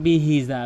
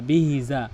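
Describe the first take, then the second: Both takes have the same delivery.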